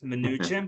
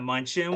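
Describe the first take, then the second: First: The name begins with 'mn', sounding 'mnoo'. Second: The name begins with 'mun', like munch. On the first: The speaker calls it right. "it's Mnuchin" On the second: The speaker calls it wrong. "the former Treasury Secretary's last name is not Munchin"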